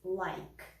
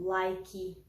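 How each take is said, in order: First: The word stops on the final consonant sound. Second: An extra vowel sound is added at the end. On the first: The speaker calls it right. "a gente não vai pronunciar esse E. Então, vai ser" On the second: The speaker calls it wrong. "É bem comum que os brasileiros acabem falando"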